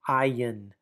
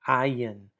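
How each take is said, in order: Both takes have the same delivery.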